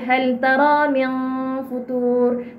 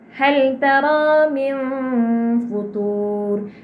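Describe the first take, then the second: First: The nasal hum is cut off, not joined onward. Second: The nasal hum is held, then joined to f. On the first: The speaker calls it wrong. "dia tak boleh hal taram yang futur. Dia tak boleh tergantung dengung tu" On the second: The speaker calls it right. "Jadi finalnya bunyinya begini"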